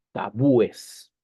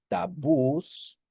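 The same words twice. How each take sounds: First: "tabúes" said as ta-BÚ-es, three syllables, a little louder; correct plural form. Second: "tabús" said with the stress on the final ú, rising at the end; wrong plural form. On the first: Teacher giving students the correct plural, firm and clear. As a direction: firmly give "tabúes" as the right plural. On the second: Teacher showing students the wrong plural, rising tone. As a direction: offer "tabús" as the odd-sounding plural. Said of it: "sonaría raro decir tabús". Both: Shown as a demonstration.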